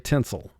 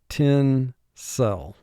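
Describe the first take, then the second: First: The second syllable has a reduced vowel. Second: The second syllable has a full vowel. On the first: This is the everyday conversational pronunciation. "in conversation, we say tinsel" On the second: This is the pronunciation used for spelling. "the way the word is spelled"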